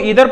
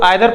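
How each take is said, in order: First: The first vowel is a long 'ee' sound. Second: The first vowel is an 'eye' sound. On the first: This is the American form. "American English में इसको ईदर पढ़ा जाता है" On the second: This is the British form. "British English है उसमें इसको आइदर पढ़ा जाता है"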